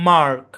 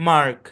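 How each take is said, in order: Both takes have the same delivery.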